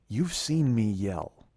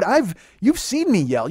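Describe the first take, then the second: First: Low, slow and soft; serious, restrained retort. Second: High, slow, emphatic protest; intense retort. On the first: Insisting to his partner he isn't yelling, quiet serious retort. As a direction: answer slowly, keeping the voice right down. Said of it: "I'll get serious". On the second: Wound up, defending himself to his partner, intense retort. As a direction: stretch it out in a raised, insistent pitch. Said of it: "I'll get kinda intense". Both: Retold or imitated.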